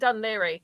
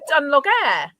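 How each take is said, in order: First: The name is said as 'Dun-leary'. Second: The name is sounded out as 'Dun-log-air'. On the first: The speaker calls it right. "do you mean Dunleary, you stupid mare?" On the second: The speaker calls it wrong. "I said, Dunlogair"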